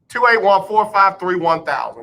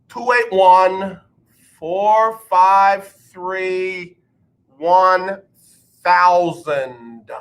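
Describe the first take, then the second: First: The number is said at normal speed. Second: The number is said slowly and deliberately.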